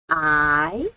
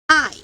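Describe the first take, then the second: First: It is said with the second tone. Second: It is said with the fourth tone. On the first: "Second tone" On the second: "Fourth tone"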